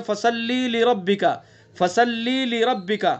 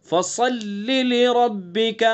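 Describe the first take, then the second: First: فَصَلِّ with the lam stretched into فصلی; wrong pronunciation. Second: فَصَلِّ لِرَبِّكَ with a full sad and a short lam; careful tajweed فَصَلِّ; correct recitation. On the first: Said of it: "وہ اس طرح پڑھتے ہیں". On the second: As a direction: recite slowly without stretching the lam. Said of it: "لام کو کھینچنا نہیں ہے". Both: Shown as a demonstration.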